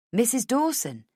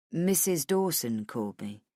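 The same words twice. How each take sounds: First: High, questioning echo of the name; pitched up in disbelief; surprised question. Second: Low, level male character voice; lower-pitched, understated statement; matter-of-fact man. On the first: Woman questions the surprising news. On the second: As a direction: break the news in a low, even voice. Man delivering news in dialogue. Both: Acted.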